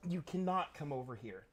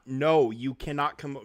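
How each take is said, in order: First: Said in the usual way. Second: Loud, stern no to the dog; raised voice at the dog; louder scold. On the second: Real, not acted. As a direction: shut the dog down, loudly. Scolding dog off his lap.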